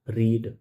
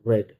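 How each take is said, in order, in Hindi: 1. स्वर लंबा है, 'reed' जैसा। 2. स्वर छोटा है, 'red' जैसा। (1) "पहला रीड" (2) "सेकंड रेड"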